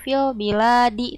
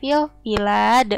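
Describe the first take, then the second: First: The final d is followed by an i vowel. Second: The final d stops with no following vowel. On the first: The speaker calls it wrong. "bukan fil biladi" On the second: The speaker calls it right. "tapi fil bilad"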